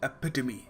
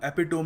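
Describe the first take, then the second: First: It ends with a 'tuh-mee' sound. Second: It ends with a 'tome' sound. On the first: The speaker calls it right. "We will pronounce it एपिटमी" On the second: The speaker calls it wrong. "तो ये भी टोम ही हो गया ना"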